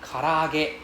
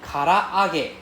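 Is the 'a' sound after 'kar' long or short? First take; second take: long; long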